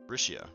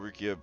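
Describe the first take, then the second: First: The middle consonant is an SH sound. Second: The middle consonant is a hard K sound. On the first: The speaker calls it right. "So the C is actually an S H" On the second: The speaker calls it wrong. "I wanted to make it a hard sound"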